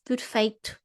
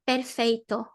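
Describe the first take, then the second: First: It has a lower, closer European pronunciation. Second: It has an open, Brazilian-like pronunciation. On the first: The speaker calls it right. "It's lower, it's closer" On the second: The speaker calls it wrong. "It's not perfeito"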